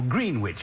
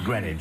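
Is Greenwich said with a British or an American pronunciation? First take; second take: American; British. First: It is said in an American pronunciation. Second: It is said in a British pronunciation. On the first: This is how the listeners probably say it. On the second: This is how the speaker says it himself.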